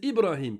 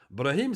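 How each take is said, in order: First: The name starts with a short i vowel. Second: The name starts directly with the consonant cluster. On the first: The speaker calls it right. "Brahim, c'est Ibrahim" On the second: The speaker calls it wrong. "C'est faux"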